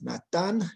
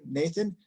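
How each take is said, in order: First: The name is pronounced the Spanish way. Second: The name is pronounced the English way. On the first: "en español es Natán" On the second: "Es un poco difícil pronunciar mi nombre"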